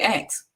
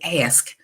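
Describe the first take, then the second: First: The word is said in a country way. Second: The word is said in the standard way. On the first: The speaker calls it wrong. "because I used to always say ask... that's the country in me" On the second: The speaker calls it right. "He says ask"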